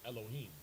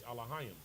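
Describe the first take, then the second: First: The word is said with an English pronunciation. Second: The word is said with a Hebrew pronunciation. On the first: "what they would say in English" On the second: "The proper pronunciation is Elohim"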